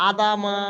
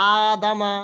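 The two takes are said the same way.

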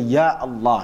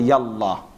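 First: A glottal catch separates Ya from Allah. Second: Ya runs straight into Allah without a catch. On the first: It is a proper call to God. The speaker calls it right. "you have to say Ya Allah" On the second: It is a casual colloquial phrase. The speaker calls it wrong. "they miss out the A in that"

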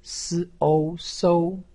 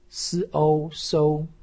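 Both takes have the same delivery.

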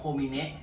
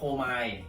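First: The name is said with three syllables, ko-mi-ne. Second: The name is said with two syllables, ko-mai. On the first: This is the Japanese reading of the name. "ถ้าอ่านเป็นญี่ปุ่นนะมันอ่านว่าโคมิเนะ" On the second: This is the English reading of the name. "ถ้าเป็นภาษาอังกฤษมันอ่านว่าโคมาย"

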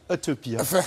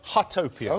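First: It is said with a French accent. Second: It is said with a plain English accent.

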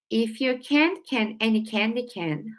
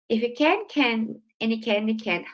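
First: The words are said at a slow pace. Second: The words are said at a fast pace. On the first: "one time slowly" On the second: "Let me try saying it faster"

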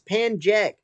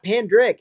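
First: The name is said with a 'jek' ending. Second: The name is said with a 'drick' ending. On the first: The speaker calls it right. "It's Panjek" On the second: The speaker calls it wrong. "no, it's not Pandrick"

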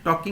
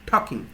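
First: The first t sound is plain, without aspiration. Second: The first t sound is aspirated, with breath. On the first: The speaker calls it wrong. "এখানে টকিং হবে না" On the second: The speaker calls it right. "টির উচ্চারণ কিন্তু ঠি"

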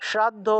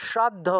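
The two takes are said the same way.

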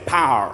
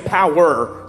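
First: The word is squeezed into one syllable. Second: The word is said with two full syllables. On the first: The speaker calls it right. "say power" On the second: The speaker calls it wrong. "don't say power"

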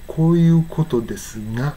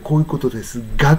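First: The final ga is said with a nasal ng. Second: The final ga is said with a hard g. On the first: "なぎぐげんご" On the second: "がの時はこういうことですがとは言わない"

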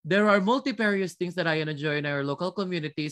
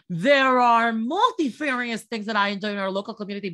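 First: It is delivered in a flat, mechanical way. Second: It is delivered in an exaggerated, strained way. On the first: "So when you sound like that on the exam, believe me, it makes you sound robotic" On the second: "how to sound forced on the exam? Okay, listen"

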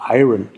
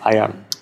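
First: The r comes before the second vowel. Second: The r comes after the second vowel. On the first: The speaker calls it wrong. "jetzt sagen Deutsche immer gerne" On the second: The speaker calls it right. "aber es heißt Iron"

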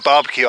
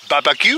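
First: It is said with a mild French accent. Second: It is said with an exaggerated French accent. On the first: The speaker calls it wrong. "instead of barbecue" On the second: The speaker calls it right. "over-exaggerate my French accent"

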